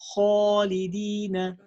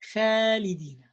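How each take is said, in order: First: The long a vowel is heavy and full. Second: The long a vowel is light and thin. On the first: The speaker calls it right. "the right way of saying that" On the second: The speaker calls it wrong. "making the sound of the alif light when it's heavy"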